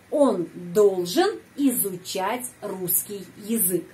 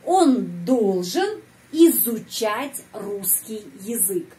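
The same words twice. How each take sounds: First: Said in the usual way. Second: Slow, word by word, each Russian word laid out; slow, clear model reading. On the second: Shown as a demonstration. Teacher modeling the sentence for students, slowly. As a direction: spell it out slowly for the learner. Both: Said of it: "dia, laki-laki, harus belajar bahasa Rusia".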